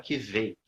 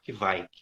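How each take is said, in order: First: The word does not rhyme with 'bike'. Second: The word rhymes with English 'bike'. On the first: This is how it is said in another region. "o meu amigo da Noruega, ele fala que veio" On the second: This is the most common pronunciation. "o mais comum é, é falar que vai ... como bike em inglês"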